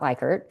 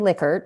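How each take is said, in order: First: The first syllable sounds like 'like'. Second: The first syllable sounds like 'lick'. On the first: The speaker calls it wrong. "not Likert" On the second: The speaker calls it right. "it's actually Likert"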